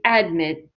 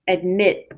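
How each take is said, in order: First: The stress is on the first syllable. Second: The stress is on the second syllable. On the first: The speaker calls it wrong. "We do not say admit" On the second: The speaker calls it right. "We say admit. ... the second syllable is stressed"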